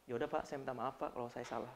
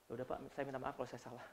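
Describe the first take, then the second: First: Very soft, low reluctant sorry; grudging apology. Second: Very soft, fast, low reluctant sorry; grudging quick apology. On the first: Grudging employee apologising to the boss, soft and low. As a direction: apologise without meaning it. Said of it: "Itu bukan menunjuk maaf". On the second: Employee rattling off an insincere apology to the boss, very soft and fast. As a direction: rush a sorry you don't mean. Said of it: "nggak tulus kamu minta maaf". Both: Retold or imitated.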